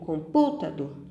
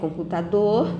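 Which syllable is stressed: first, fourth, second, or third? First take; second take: second; fourth. First: The stress is on the second syllable. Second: The stress is on the fourth syllable. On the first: The speaker calls it wrong. "Eu digo computador? Também não" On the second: The speaker calls it right. "se eu disser computador, eu sei que a última sílaba, dor, é a mais forte"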